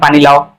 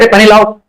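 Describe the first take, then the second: First: It is said in a calm, plain tone. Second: It is said in an irritated, angry tone.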